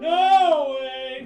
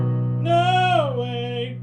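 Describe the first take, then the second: First: It is yelled straight ahead in a plain voice. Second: It is yelled downward in a whinier voice.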